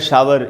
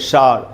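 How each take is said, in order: First: Said as two full syllables ending in r. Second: Said as one long syllable ending in r. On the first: This is how Hindi-medium speakers say it. "Hindi medium में शावर" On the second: This is how English-medium speakers say it. "English medium में शार"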